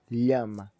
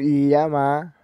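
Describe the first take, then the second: First: The stress is on the first syllable. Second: The stress is on the last syllable. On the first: It is the tú command form. "já na sua forma tu seria lá" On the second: It is the vos command form. "a minha vogal ela é oxítono, essa é final, a sílaba tônica"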